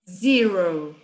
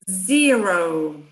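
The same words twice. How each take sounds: First: The word is said at a normal speed. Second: The word is said more slowly.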